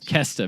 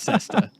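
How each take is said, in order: First: The word begins with a hard K sound. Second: The word begins with a soft S sound. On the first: "Maybe it's a hard C" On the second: "I'm guessing it's cesta"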